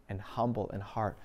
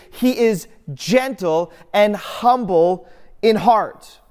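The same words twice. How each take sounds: First: Much softer and lower, "and humble in heart" almost breathed out; hushed. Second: Higher, louder and slow, proclaiming "gentle and humble in heart"; proclaimed. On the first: Preacher quietly drawing the congregation inward, hushed. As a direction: let "and humble in heart" fall to a hush. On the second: Preacher proclaiming Jesus' heart to the congregation, loud and slow. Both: Acted.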